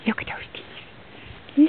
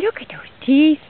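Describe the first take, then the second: First: Whisper. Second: Said in the usual way. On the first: Real, not acted. Talking to animals, repeats louder.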